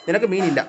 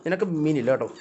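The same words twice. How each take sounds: First: നിനക്ക് മീനില്ല said louder, firm; firmer repeat. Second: Said in the usual way. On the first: Real, not acted. Owner refusing the cat fish, louder firm repeat. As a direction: repeat it louder to make it stick. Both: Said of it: "repeated more firmly".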